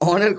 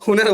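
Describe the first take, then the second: First: It begins with an open 'aw' vowel, no h. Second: It begins with an 'h' and a 'u' vowel. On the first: The speaker calls it right. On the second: The speaker calls it wrong.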